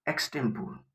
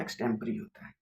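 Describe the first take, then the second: First: एक्सटेम्पोर said as eks-tem-por, ending on a full por; common wrong pronunciation. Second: एक्सटेम्परी said as eks-tem-pə-ri, four syllables ending in ri; correct pronunciation. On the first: Teacher asks class how to read word, gives common wrong reading. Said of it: "वो एक्सटेम्पोर नहीं होता". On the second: Teacher corrects class, gives exact reading, clear and plain. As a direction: give एक्सटेम्परी its proper ending, pə-ri. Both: Shown as a demonstration.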